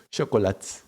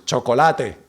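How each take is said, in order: First: Chocolate closing off at the t; Portuguese chocolate, e dropped. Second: Chocolate with every vowel sounded; Spanish chocolate, e pronounced. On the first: Showing the right Portuguese, chocolate closed off. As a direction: swallow the end of chocolate. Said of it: "You pronounce chocolate". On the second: Mock-showing the wrong Portuguese, chocolate Spanish style. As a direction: give chocolate a full final e. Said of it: "you don't pronounce it like Spanish". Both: Shown as a demonstration.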